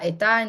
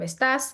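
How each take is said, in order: First: The final s sound is dropped. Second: The final s sound is pronounced. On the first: "deletion of syllable final S" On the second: "instead of estás"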